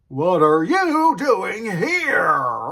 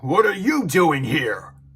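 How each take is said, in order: First: It is said with exaggerated, over-the-top inflection. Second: It is said in a natural, restrained way.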